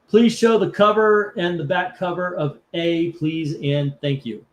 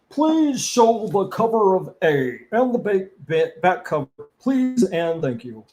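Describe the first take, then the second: First: It is read in his own normal voice. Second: It is read in a Ron Swanson voice.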